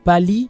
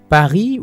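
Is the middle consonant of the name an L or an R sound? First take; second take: L; R. First: The middle consonant is an L sound. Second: The middle consonant is an R sound. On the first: "Ils préfèrent remplacer le R par une autre consonne, la consonne L" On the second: "Paris ou Pali"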